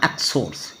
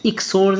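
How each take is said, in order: First: एक्सोड्स said with a short e at the start, like exodus; एक्सोड्स, opening vowel as e; correct reading. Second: एक्सोड्स said with an ee sound at the start, like iksodus; एक्सोड्स, opening vowel as ee; wrong reading. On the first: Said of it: "नहीं पढ़ना". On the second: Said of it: "एक्सोड्स नहीं पढ़ना". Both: Shown as a demonstration.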